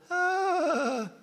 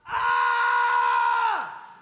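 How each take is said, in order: First: It is a small, weak shout. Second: It is a loud, full shout.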